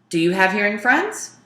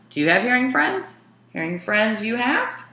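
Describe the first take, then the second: First: Said in the usual way. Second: Higher, quicker yes-no question with a lift at the end; questioning rise. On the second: Shown as a demonstration. Teacher demos a yes-no question for the students, higher and quicker. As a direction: ask it with eyebrows raised. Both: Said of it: "See, my eyebrows are up".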